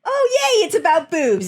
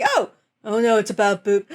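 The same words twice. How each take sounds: First: High-pitched imitated cheer; mock delight. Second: Imitated dawning dismay, cut short; mock dismay. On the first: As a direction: switch to her gleeful yay. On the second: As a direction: play her dropping the line, oh-no style. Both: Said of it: "because she's like".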